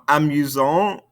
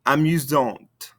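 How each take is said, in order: First: "Amusant" rising on an open nasal vowel; no T at the end of "Amusant"; silent ending consonants. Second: "Amusante" slow, falling onto an audible T; sounded ending consonants. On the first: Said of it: "Don't pronounce those ending consonants". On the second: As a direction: release the T of "Amusante". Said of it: "makes us pronounce those ending consonants". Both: Shown as a demonstration.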